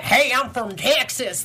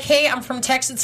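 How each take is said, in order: First: Slow, heavy Texas drawl on every word; thick Texas accent. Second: A mild Texas twang, barely there; light Texas accent. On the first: Co-host mocking the actor's now much stronger Texas accent. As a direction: lean hard into the Texas accent. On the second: Co-host mimicking the actor's early mild Texas accent. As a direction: say it with just a hint of Texas. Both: Retold or imitated. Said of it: "it's just so much stronger".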